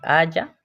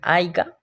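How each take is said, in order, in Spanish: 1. La parte del medio tiene un sonido de y, sin g. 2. La parte del medio tiene un sonido de g fuerte. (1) "que se dice haya" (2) "muchos dicen aiga, ... no se dice así"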